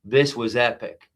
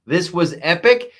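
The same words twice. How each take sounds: First: Said in the usual way. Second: Louder, higher, rising on epic; excited emphasis. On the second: Real, not acted. Comedian reviewing the speech, building to excited praise. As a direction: punch it up with real delight.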